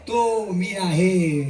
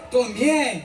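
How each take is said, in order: First: तो मी आहे said very slowly, each word drawn out; तो मी आहे spoken slowly and solemnly; slow realization. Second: Said in the usual way. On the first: Shown as a demonstration. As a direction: let तो मी आहे sink in slowly. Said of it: "repeated mantra, slowed". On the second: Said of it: "repeated mantra".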